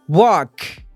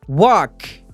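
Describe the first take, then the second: The two takes are said the same way.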